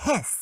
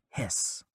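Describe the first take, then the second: First: High, short hiss like a snake; mock snake hiss. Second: Soft breathy snake hiss, no voice; whispered hiss. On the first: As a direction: hiss it out like a little cartoon snake. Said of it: "And I went". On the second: Retold or imitated. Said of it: "just went".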